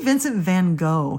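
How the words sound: The name is said with an American pronunciation. "We say Vincent van Gogh here in the United States"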